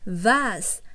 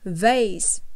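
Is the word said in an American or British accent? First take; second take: British; American. First: The word is said in a British accent. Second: The word is said in an American accent. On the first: "chúng ta đang học theo chương trình tiếng Anh giọng Anh nên là các con sẽ đọc là vase" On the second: "đối với người Mỹ thì họ sẽ đọc là vase"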